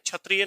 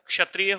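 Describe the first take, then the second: First: The first sound lacks the blended k and sh. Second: The first sound blends k and sh together. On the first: The speaker calls it wrong. "क्षत्रिय नहीं होता" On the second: The speaker calls it right. "अपने मुख में क और श को मिलाकर के बोलिएगा"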